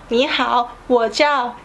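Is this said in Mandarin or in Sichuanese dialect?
Mandarin. It is said in standard Mandarin. "in the Mandarin we say"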